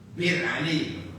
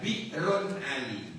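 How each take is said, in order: First: The first word is shortened to one syllable. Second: The first word has two syllables, ending in -run. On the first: This is the shortened form that is easier to say. "Akhirnya mudah dibaca" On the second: This is the original full form of the name. "Bir Ali itu dulu ya Bi'run Ali"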